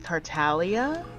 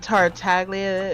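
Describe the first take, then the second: First: The G sound in the name is silent. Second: The G sound in the name is pronounced. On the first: The speaker calls it right. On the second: The speaker calls it wrong.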